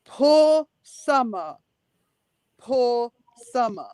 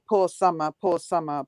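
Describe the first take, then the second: First: Drawn-out mock pity, long pauses. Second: Lower, sinking voice of sympathy; sincere pity. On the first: Co-host imitates how he mocks sympathy for Summer, mocking. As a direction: imitate him mocking, very slowly. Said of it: "But he's mocking her". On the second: Real, not acted. Co-host pities Summer for having such parents, sincere. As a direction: say it low, meaning the pity. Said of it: "because she's got a father and a mother like that".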